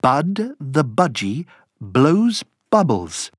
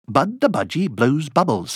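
First: The phrase is said at a slow pace. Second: The phrase is said at a quicker pace.

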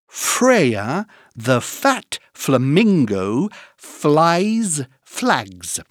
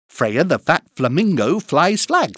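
First: It is said at a slow, careful pace. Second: It is said at a fast pace.

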